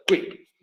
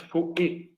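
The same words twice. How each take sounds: First: QUICK said as a single short syllable; quick as one syllable. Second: QUICK wrongly split as "cu-ic"; quick in two syllables. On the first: Teacher showing the syllable count, QUICK in one syllable. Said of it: "una sílaba". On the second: Teacher showing how not to say it, QUICK split in two. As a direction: break "quick" slowly into two beats, cu-ic. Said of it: "No es quick". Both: Shown as a demonstration.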